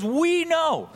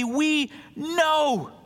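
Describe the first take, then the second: First: "WE know" with WE pitched high and drawn out; stress on WE. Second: "We KNOW" with KNOW high and stretched out; emphatic KNOW. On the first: Preacher contrasting Paul's "we" with "I", stress on WE. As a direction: punch WE in "We know", much higher. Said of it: "he doesn't just say, "I know". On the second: Preacher quoting Paul's certainty, emphatic stress on KNOW. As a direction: lean hard on KNOW in "We know", pitched up. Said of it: "Paul says it emphatically". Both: Retold or imitated.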